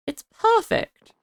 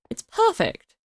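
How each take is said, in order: First: It's perfect said slower and high with a rise; It's perfect sung out high and slow; drawn-out high delight. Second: Delighted. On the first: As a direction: savour It's perfect, stretched and rising. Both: Real, not acted. Repeated with different tune.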